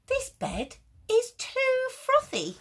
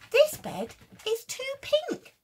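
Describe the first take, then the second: First: High, slow and loud, fussy bear; squeaky fussy complaint. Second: High loud squeal of disgust; squeaky fussy complaint. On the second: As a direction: squeal it like a picky bear. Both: Acted. Fussy bear rejecting bed.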